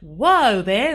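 It is said in a put-on Australian accent.

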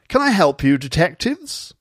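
A very posh voice with clear speech. "He's terribly, terribly, terribly posh"

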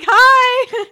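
It is said in a happy tone.

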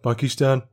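The word is said in a Birmingham accent. "if it was my normal Brummy voice"

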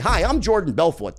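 The name is said as a falling statement.

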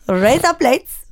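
It is said in an Indian accent.

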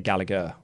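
The name is said with a British pronunciation. The speaker calls it right. "we in the UK would say Gallagher"

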